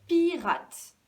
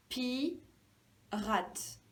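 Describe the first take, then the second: First: Said in the usual way. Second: "pirate" split as pi, rate; syllable by syllable. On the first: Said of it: "Alors, si je reprends". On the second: Shown as a demonstration. Teacher finding the first syllable, syllable by syllable. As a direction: say "pirate" with a gap after pi. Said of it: "La première syllabe".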